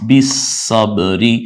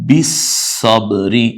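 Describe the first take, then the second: No difference in how they are said.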